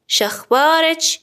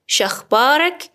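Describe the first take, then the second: First: شخبارچ with final -ech; slow, higher شخبارچ ending on ch; feminine ending. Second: شخبارک with final -ek; slow, rising شخبارک ending on k; masculine ending. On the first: Teacher asks a woman for news, شخبارچ with final ch. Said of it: "اگر طرف مقابلم خانم بود". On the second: Teacher asks a man for news, شخبارک with final k. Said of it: "طرف مقابلم آقاست". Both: Shown as a demonstration.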